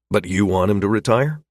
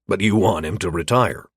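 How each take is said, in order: First: It ends with a rising, questioning tune. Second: It ends with a falling, statement-like tune.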